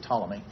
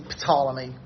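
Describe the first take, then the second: First: The initial P is silent. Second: The initial P is pronounced. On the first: This is the usual English pronunciation. The speaker calls it right. "we just say Ptolemy" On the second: This is how the Greeks probably said it. The speaker calls it wrong. "we don't say Ptolemy"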